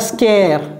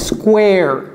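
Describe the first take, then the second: First: The word has no w sound after k. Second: The word has a w sound after k. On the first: The speaker calls it wrong. "je ne dis pas scare" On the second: The speaker calls it right. "c'est square"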